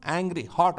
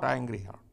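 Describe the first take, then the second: First: Angry and hot both pressed firmly; stressed words. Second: Angry and hot repeated softer and lower; soft echo. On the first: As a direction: lay weight on angry and hot. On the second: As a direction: let angry and hot fall away quietly. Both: Shown as a demonstration. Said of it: "the other word you can use is he was hot".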